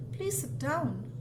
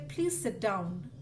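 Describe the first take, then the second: First: Raised pitch, slow and emphatic; an exclaimed, insistent sit down; exclamation. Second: Said in the usual way. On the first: Shown as a demonstration. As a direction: say it as an exclamation, pushing it up. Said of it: "that's with an exclamation". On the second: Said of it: "that's a statement".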